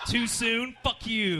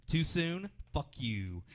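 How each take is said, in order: First: Higher and louder, hitting too soon and fuck you; mock-defiant comic tag line; punchy callback catchphrase. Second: Understated imitation of a comic's tag line; deadpan catchphrase. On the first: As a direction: slam the catchphrase home as the closer. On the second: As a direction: toss off the guy's catchphrase flatly. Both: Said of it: "After every joke, he said".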